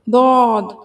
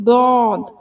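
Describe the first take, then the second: First: The letter starts with a heavy d sound. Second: The letter starts with a heavy d sound.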